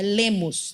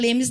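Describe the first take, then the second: First: The second syllable has an o vowel. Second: The second syllable has an e vowel. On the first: The speaker calls it right. "não, é Lemos" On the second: The speaker calls it wrong. "Ele não gosta que chama de Lemes"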